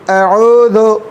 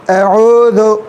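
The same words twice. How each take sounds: No difference in how they are said.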